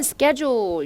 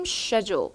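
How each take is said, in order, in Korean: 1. 미국식 발음으로 말합니다. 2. 영국식 발음으로 말합니다.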